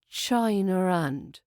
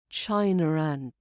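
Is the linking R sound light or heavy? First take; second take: light; light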